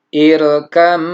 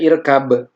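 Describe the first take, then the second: First: The b is merged into the following m. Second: The b is kept distinct before the m. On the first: The speaker calls it right. "Jadi bacanya irkam ma'ana" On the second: The speaker calls it wrong. "tidak irkab"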